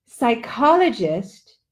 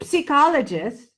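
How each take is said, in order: First: "psychologist," with a clear sigh-k start and stress on the second syllable; slow, careful "psychologist,"; "psychologist," said sigh-KOL-o-gist; right pronunciation. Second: "psychologist." with a sick-like first syllable; mock the mistake, "psychologist." said as sick-ologist; "psychologist." starting with a short "si" sound; wrong pronunciation. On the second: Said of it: "don't wanna hear no one saying". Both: Shown as a demonstration.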